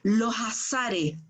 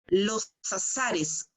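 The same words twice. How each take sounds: First: The s is breathed out like an h. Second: The s is clear, without a whistle. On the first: The speaker calls it wrong. "le ponen una H entre medio" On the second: The speaker calls it right. "corres un poquito la lengua hacia el paladar"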